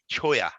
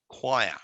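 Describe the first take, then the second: First: The word starts with a ch sound, read as spelled. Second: The word starts with a kw sound. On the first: It is a learner's guess from the spelling. The speaker calls it wrong. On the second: It is the standard pronunciation. The speaker calls it right.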